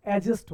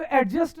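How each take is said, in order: First: एडजस्ट as "ejust", without d; silent d. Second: एडजस्ट with the d sounded, "ad-just"; mispronunciation. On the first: Teacher giving the right form, एडजस्ट with silent d. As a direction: drop the d from एडजस्ट. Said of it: "क्या होता है?". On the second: Teacher rejecting the common form, एडजस्ट with audible d. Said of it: "नहीं होता". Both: Shown as a demonstration.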